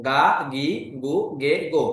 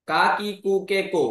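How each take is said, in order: First: "গা, গি, গু, গে, গো" with a voiced g sound; voiced G series. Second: "কা, কি, কু, কে, কো" with a hard k sound; unvoiced K series. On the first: Teacher shows learners the change after ten-ten, voiced G syllables. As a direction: say "গা, গি, গু, গে, গো", each starting on g. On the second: Teacher shows learners the sounds before ten-ten, crisp K syllables. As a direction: say "কা, কি, কু, কে, কো", each starting on k. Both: Shown as a demonstration. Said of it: "উচ্চারণ হয়ে গেছে".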